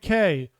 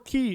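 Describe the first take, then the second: First: The word is said to sound like 'kay'. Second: The word is said to sound like 'key'. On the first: The speaker calls it wrong. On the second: The speaker calls it right.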